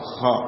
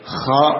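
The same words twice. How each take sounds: First: The kh sound is light and clean. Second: The kh sound is rough and heavy. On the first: "kha dengan bersih" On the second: "dengan kotor kha"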